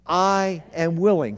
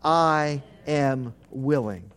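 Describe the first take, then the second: First: "willing" leaned on, steady pace; firm declaration. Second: "I" stressed, the whole phrase slowed and lower; slow, lower emphasis. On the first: Pastor repeating the promise to the congregation, firm. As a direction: land firmly on "willing". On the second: Pastor having the congregation repeat it, slow and weighty. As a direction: linger on "I", drawing out "I am willing". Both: Shown as a demonstration. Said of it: "Say it again".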